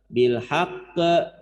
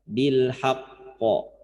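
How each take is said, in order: First: The final bounce sounds light, like an e. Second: The final bounce sounds heavy, like an o. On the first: The speaker calls it wrong. "Bil haqqe, bukan" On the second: The speaker calls it right. "Karena qaf itu huruf tebal, maka pantulannya juga ngikut tebal"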